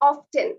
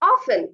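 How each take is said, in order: First: The 't' sound is pronounced. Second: The 't' sound is left out. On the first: The speaker calls it wrong. "বানান দেখে অনেকে বলে থাকেন often" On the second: The speaker calls it right. "correct হচ্ছে often"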